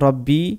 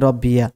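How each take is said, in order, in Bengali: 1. শব্দটি সাধারণ i ধ্বনি দিয়ে শেষ হয়। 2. শব্দটি একটি যোগ করা ya ধ্বনি দিয়ে শেষ হয়।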